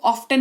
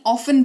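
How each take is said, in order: First: ऑफ्टन with an audible T; wrong pronunciation. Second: ऑफन with no T; correct pronunciation. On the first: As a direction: say ऑफ्टन, T after the F. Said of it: "ऑफ्टन नहीं". (गलत उच्चारण, ऑफ्टन में ट बोलकर) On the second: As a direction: say ऑफन, F straight into the vowel. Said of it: "ऑफन पढ़ेंगे इसको". (सही उच्चारण, ऑफन में ट मौन) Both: Shown as a demonstration.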